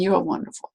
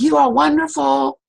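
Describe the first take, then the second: First: Softer returning echo; the echo returning the grandfather's words. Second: High, loud call with stress on are. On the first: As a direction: let it drift back quietly. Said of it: "came back". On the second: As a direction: proclaim it to the canyon. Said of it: "And he said". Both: Retold or imitated.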